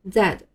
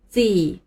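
First: British pronunciation, ending in a light d sound. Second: American pronunciation of the letter. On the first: "在英国，这个字母读作Z，尾音d，发的要稍微轻一些" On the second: "但是在美国，这个字母读作Z"

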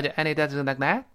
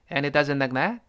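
Both takes have the same delivery.

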